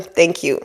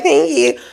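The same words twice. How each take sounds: First: Said in the usual way. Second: Small, shy "Thank you." with a rising lift at the end. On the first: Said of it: "Look them in the face and tell them". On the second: Shown as a demonstration. Showing viewers the shy way to take a compliment, timid. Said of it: "Don't shy away and be like".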